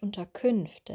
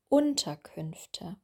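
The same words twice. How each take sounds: First: The stress is on a later syllable. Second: The stress is on the first syllable. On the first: The speaker calls it wrong. "und nicht Unterkünfte" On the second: The speaker calls it right. "Wir würden hier un betonen"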